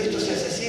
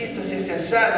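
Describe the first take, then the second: First: Hushed aside; whispered take. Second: Said in the usual way. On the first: Shown as a demonstration. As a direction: whisper esto se hace así.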